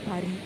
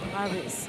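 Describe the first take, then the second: First: The word ends without any s sound. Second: The word ends with an audible s sound. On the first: "ஃப்ரெஞ்சுல சொல்றது வந்து பரி. ஏன்னா கடைசியில இருக்க எஸ் வந்து எப்பொழுதுமே உச்சரிக்க மாட்டாங்க" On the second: "பாரிஸ் என்றத"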